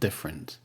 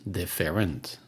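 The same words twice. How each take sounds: First: The middle vowel is dropped, giving two syllables. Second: The middle vowel is pronounced as a full syllable. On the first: The speaker calls it right. "but different" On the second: The speaker calls it wrong. "and not different"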